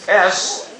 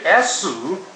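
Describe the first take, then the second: First: It ends on the s sound with no vowel. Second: It ends with an added u vowel after s.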